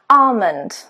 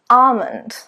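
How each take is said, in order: The two takes are said the same way.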